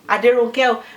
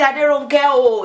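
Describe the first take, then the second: First: The call is said mildly, with little emphasis. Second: The call is said with strong emphasis.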